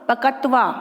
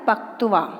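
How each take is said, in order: First: The k and t are said as full syllables. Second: The k and t are reduced into a cluster. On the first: The speaker calls it wrong. "यदि मैं पूरा बोलती हूँ पूरा क और पूरा त तो बनेगा पकत्वा" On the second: The speaker calls it right. "इसका शुद्ध उच्चारण है पक्त्वा"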